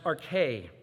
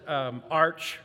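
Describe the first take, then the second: First: It is said as two syllables, ar-kay. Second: It is said as one syllable, arch. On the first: The speaker calls it right. "but it's pronounced arche" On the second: The speaker calls it wrong. "We might pronounce it arch"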